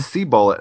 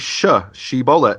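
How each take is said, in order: First: The word begins with an 's' sound. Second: The word begins with an 'sh' sound. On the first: The speaker calls it wrong. "It came out as seabullet" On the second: The speaker calls it right. "they couldn't say shibboleth"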